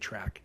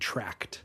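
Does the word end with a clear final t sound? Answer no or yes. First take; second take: no; yes. First: The word ends on a k sound, with no t. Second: The word ends with a clear final t sound. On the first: The speaker calls it wrong. "they say track" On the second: The speaker calls it right. "still don't know that it's housing tract"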